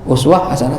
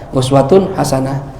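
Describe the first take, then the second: First: The first word ends without its case ending. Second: The first word keeps its full case ending.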